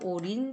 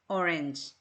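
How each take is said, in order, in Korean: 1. 두 번째 모음은 'ee' 소리처럼 들려요. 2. 두 번째 모음은 'eh' 소리처럼 들려요. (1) "정확한 것으로 하자 싶으면 오렌지라기보다는 오린지" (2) "우리는 주로 오렌지로 읽죠"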